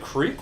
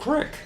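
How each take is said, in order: First: The vowel is a long 'ee' sound. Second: The vowel is a short 'i' sound. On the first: "Is it creek or crick?" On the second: "Is it creek or crick?"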